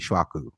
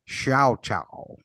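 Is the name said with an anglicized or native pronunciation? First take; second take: Native; Anglicized. First: The name is said with a native-style pronunciation. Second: The name is said with an English-style pronunciation.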